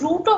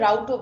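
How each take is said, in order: First: The word is said with an 'oo' vowel. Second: The word is said with an 'ow' vowel. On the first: "ওটাকে রুটও বলে অনেকে" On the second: "আবার রাউটও বলে pronunciation যে যেরকম করে"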